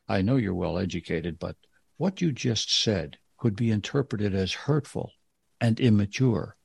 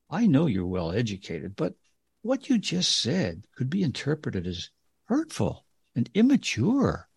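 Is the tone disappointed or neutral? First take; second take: neutral; disappointed. First: It is said in a neutral tone. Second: It is said in a disappointed tone.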